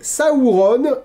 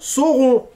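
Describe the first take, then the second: First: The first syllable sounds like 'ow' in cow. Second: The first syllable sounds like a plain 'oh'. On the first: The speaker calls it right. "La première syllabe de Sauron comme l'anglais sau" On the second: The speaker calls it wrong. "et non Sauron"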